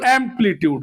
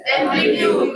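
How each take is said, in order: First: Said in the usual way. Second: Whispered echo. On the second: Shown as a demonstration. Teacher whispering the term amplitude back to the class. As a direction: breathe amplitude out with no voice. Word echoed right after the question.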